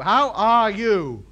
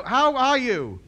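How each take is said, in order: First: How are you? stretched out word by word, slow and louder; slowed-down How are you? for someone who can't follow; very slow and deliberate. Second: Said in the usual way. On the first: Shown as a demonstration. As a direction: spell out How are you? slowly for a foreigner. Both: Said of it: "No, no. How are you?".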